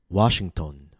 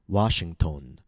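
First: The last syllable has a full unreduced vowel. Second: The last syllable has a full unreduced vowel.

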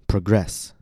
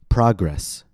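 First: The stress is on the second syllable. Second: The stress is on the first syllable. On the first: It is a verb: to move forward. "After that, I'll say it as a verb, with stress on the second syllable" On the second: It is a noun: forward movement. "First, I'll say it as a noun, with stress on the first syllable"

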